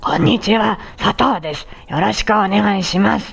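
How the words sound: The voice is rough and gravelly.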